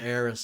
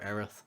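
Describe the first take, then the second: First: The name ends with an s sound. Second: The name ends with a th sound. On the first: This is the mistranslated form of the name. The speaker calls it wrong. "Stephen calls her Eris" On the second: This is the intended name, close to Earth. The speaker calls it right. "I call her Aerith"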